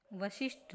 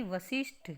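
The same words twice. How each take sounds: First: वशिष्ठ as the form to reject; wrong form. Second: वशिष्ठ as the corrected form. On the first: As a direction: offer वशिष्ठ as the mistaken version. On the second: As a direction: give वशिष्ठ as the right version. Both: Shown as a demonstration. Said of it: "वशिष्ठ नहीं".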